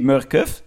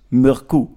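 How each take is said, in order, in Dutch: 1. De naam eindigt op een duidelijke 'kov'-klank. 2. De naam eindigt op een zachte 'koo'-klank. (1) "Het is niet Murkov" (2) "het is een Deense renner, dus het is Murku"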